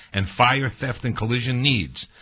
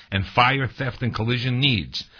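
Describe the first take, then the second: The two takes are said the same way.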